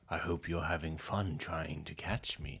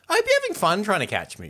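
First: The tone is dark and menacing. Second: The tone is light and friendly. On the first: "you can imagine it being quite sinister, like" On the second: "you could read it in a different tone, like, hey, guys"

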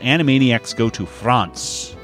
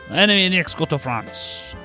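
First: It is said in the speaker's ordinary accent. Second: It is said in a put-on French accent.

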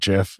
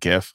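First: The word starts with a J sound. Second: The word starts with a hard G sound. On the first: It sounds like a peanut butter brand. The speaker calls it wrong. "I can't call it GIF. It's like peanut butter" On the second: It follows the word graphical. The speaker calls it right. "it stands for graphical interchange format or something. So I've always said GIF"

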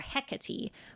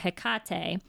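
First: The stress is on the first syllable. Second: The stress is on the middle syllable. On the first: This is the British way of saying the name. "The British pronunciation is either Hecate or Hecate with the stressed first syllable" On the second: This is the Greek way of saying the name. "the Greek pronunciation is either Hecate or Hecate with a stressed syllable in the center"

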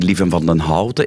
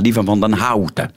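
First: The vowel in Houten is the usual dark sound. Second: The vowel in Houten is opened like 'ouch'. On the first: "dus dat niet Lieven van den Houten is" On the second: "maar ... Zoals als je een beetje pijn hebt, daar zit een au in"

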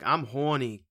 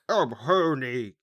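First: It is said in an ordinary everyday voice. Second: It is said in a put-on old wizard voice. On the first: "but he didn't sound like that" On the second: "He was Dumbledore"

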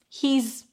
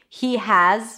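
First: Has is reduced to a z sound. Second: Has is pronounced in full as a separate word.

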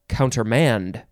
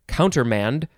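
First: The stress is on the last syllable. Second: The stress is on the first syllable.

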